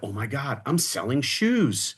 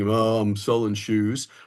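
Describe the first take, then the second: First: It is said in an excited, enthusiastic tone. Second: It is said in a flat, unexcited tone.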